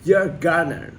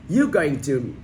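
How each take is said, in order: First: The words are reduced and run together quickly. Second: Each word is said fully and clearly.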